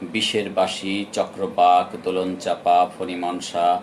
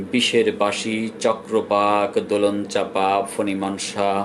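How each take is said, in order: Both takes have the same delivery.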